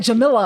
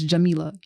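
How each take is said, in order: First: Jamila with a short i, "juh-MILL-uh"; loud mock mispronunciation of Jamila; mispronounced name. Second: Jamila with a long ee, "juh-MEE-luh"; firm, correct Jamila with stretched MEE; corrected name pronunciation. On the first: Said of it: "but they be like". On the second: Shown as a demonstration. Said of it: "My parents did not name me".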